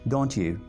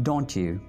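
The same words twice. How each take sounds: No difference in how they are said.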